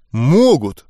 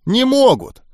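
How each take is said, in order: First: Mildly hurt insistence in the usual pitch; offended. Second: High-pitched exasperated denial; emphatic contradiction. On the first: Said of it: "даже обиделся я". (слегка обиженно настаивая) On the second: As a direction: shut the argument down, pitched well up. Goblin flatly contradicts the narrator. (раздражённо отрицая, высоким голосом) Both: A narrator's reading.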